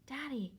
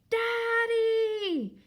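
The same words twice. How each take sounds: First: It is said very quietly. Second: It is yelled as loud as possible.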